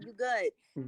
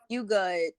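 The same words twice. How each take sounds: First: It is said in a warm, reassuring tone. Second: It is said in an annoyed, dismissive tone. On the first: I am paying the whole bill. "nah, don't worry about it. You good" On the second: Stop talking to me. "if you just piss me off and I'm like, yeah, you good, you're not good"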